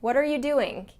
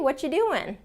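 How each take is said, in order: First: Every word is said fully and separately. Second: The word are is dropped in reduced speech. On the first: The listener may be in trouble or disapproved of. "Sounds more strict and formal and exact" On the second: It is a casual, friendly greeting. "you'd say, what you doing?"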